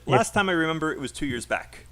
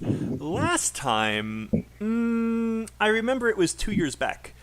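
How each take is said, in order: First: It runs on without a pause after "last time". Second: There is a pause after "last time". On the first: It sounds like one idea, so the grammar seems wrong. The speaker calls it wrong. "That sounds like it's it's one idea" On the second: It sounds like two separate ideas. The speaker calls it right. "add a pause"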